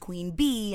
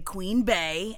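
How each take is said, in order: First: The name is said with an 'ee' vowel. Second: The name is said with an 'ay' vowel. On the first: "it's Queen Bee" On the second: "I say Queen Bey"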